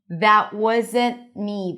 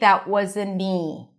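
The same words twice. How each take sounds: First: The T in wasn't is held briefly. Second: The T in wasn't is dropped completely. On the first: "The T is held" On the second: "You can even drop the T"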